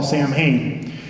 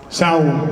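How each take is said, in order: First: It is said as spelled, like 'Sam-hain'. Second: It is said like 'Sow-in', close to 'sound'. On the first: This is how Americans say it. The speaker calls it wrong. "a harvest festival that Americans call Samhain" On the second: This is how it is said in Ireland. The speaker calls it right. "I think it's pronounced Sound"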